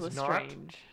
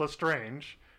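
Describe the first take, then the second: First: The ending is said the French way. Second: The ending is said like English 'strange'. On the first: The speaker calls it right. "She is Lestrange" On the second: The speaker calls it wrong. "Not Lestrange"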